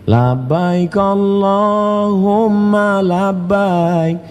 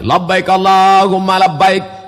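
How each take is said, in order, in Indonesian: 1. Diucapkan dengan suara lembut dan halus. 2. Diucapkan dengan suara keras dan tegas. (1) "Coba agak lembut sedikit" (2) "keras-keras suara saya"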